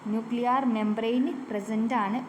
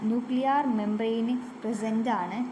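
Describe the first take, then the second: The two takes are said the same way.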